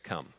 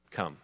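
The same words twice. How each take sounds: First: 轻声说出的"Come"，很轻很低; 像温柔地招呼人过来一样轻轻说; gentle soft call. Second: Said in the usual way. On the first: Retold or imitated. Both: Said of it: "He said".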